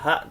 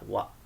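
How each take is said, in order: First: The particle begins with an h sound. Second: The particle begins with a w sound. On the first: The speaker calls it wrong. "bukan dibaca ha" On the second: The speaker calls it right. "tetapi kita baca wa"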